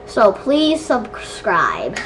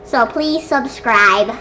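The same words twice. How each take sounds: First: Slow, low, stretched plea; slowed-down sign-off. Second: Said in the usual way. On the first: Pretend. Redoing the subscribe request after a gasp, slowly. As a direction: draw out each word, dropping low.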